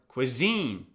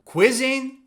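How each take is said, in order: First: The stress is on the second syllable. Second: The stress is on the first syllable. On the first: The speaker calls it right. "it's on the second syllable" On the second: The speaker calls it wrong. "Is it on the first syllable"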